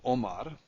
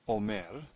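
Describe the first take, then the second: First: The last syllable has a short a vowel. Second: The last syllable has a lengthened e vowel. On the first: This is the ordinary form. "Normally, it's a patach" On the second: This is the form at a pause. "in pause, this here is lengthened to a tsere"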